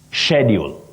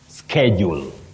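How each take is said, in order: First: The word begins with an 'sh' sound. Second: The word begins with an 'sk' sound. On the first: "British, sh" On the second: "American, sk"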